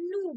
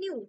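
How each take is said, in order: First: The vowel comes straight after the n. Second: A y glide comes between n and vowel. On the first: The speaker calls it wrong. "একটুখানি modern ভাবে নু বলে" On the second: The speaker calls it right. "সেটা হচ্ছে নিউ"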